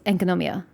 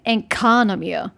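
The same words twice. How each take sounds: First: All syllables get fairly even, neutral stress. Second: One syllable is strongly stressed, American-style. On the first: The speaker calls it right. "as neutral as possible" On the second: The speaker calls it wrong. "just sounds so American"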